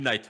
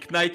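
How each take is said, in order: First: The word is said with English pronunciation. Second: The word is said with French pronunciation. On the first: The speaker calls it right. "ça se dit Knight" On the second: The speaker calls it wrong. "Tu dis Knight"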